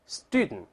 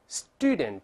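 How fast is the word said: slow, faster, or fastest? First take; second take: fastest; slow. First: It is said fastest with the final t unreleased. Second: It is said slowly with every sound clear. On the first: "再快点，最后这个t 都失去爆破了" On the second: "我们再读一下"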